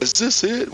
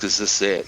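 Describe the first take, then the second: First: High, puzzled pilot voice; pilot asking. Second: Said in the usual way. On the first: Retold or imitated. Blackhawk pilot asking if they landed right, puzzled. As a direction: pitch it up like a lost pilot. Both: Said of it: "When the Blackhawk pilot asks".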